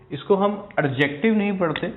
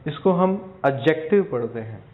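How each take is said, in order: First: Adjective with the d sounded; wrong pronunciation. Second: Adjective with a silent d; correct pronunciation. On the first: Teacher showing students the wrong way to say it. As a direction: say एडजेक्टिव with a clear d, the wrong way. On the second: Teacher showing students the right way to say it. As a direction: say एडजेक्टिव as "ajective", no d sound. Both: Shown as a demonstration. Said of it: "डी इसके अंदर silent होता है".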